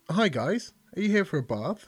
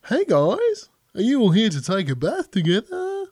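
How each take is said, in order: First: Australian receptionist. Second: Higher, louder, bright Australian receptionist greeting. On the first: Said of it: "Is she Australian?". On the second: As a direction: ham up the Australian accent as a cheery receptionist. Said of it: "Yeah, she's Australian". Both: Acted.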